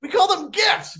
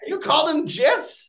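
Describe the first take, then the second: First: High-pitched correction, hard G opening "gifs". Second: High, slow query with "gifs" starting as in "jet"; soft-g gifs. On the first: Shown as a demonstration. Guest telling Australian host how they say it, hard-G "gifs". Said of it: "What do you guys call them?". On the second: Real, not acted. Guest querying the host's word, soft J in "gifs". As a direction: say "gifs" with a J sound, like "jifs". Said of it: "Yeah, we call them gifs".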